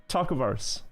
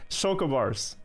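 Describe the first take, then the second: Both takes have the same delivery.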